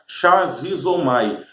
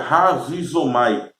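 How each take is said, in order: First: The word begins with an SH sound. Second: The word begins with an R sound. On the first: The speaker calls it wrong. "se usarmos a pronúncia é, do português, vai ficar shazizomai" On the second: The speaker calls it right. "se falarmos de acordo com o grego, o C H tem um som de R"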